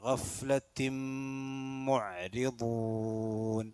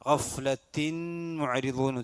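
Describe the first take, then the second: First: The n merges into the m with nasalization. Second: The n is pronounced clearly before the m. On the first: The speaker calls it right. "നൂനു സാക്കിനത്തിനെ മീമിലേക്ക് ദഗാം ചെയ്ത് അവിടെ മണിച്ചുച്ചരിക്കണം" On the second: The speaker calls it wrong. "ഉച്ചരിക്കാൻ പാടില്ല"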